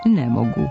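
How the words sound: The stress falls on the word ne.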